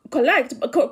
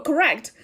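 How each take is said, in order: First: "correct" slipping into a Kikuyu accent, the k-r run together; Kikuyu-accented "correct" that needs fixing. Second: Said in the usual way. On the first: Real, not acted. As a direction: let "correct" come out in your Kikuyu accent. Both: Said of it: "that's my Kikuyu accent coming out".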